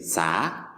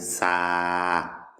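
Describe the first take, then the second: First: The vowel is held for a normal length. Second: The vowel is held for four to six counts. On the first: The speaker calls it wrong. "Au lieu de dire ça" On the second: The speaker calls it right. "on va allonger la, euh, l'accent de, de quatre à six temps"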